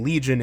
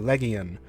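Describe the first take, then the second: First: The g is soft, like a j sound. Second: The g is hard, as in go.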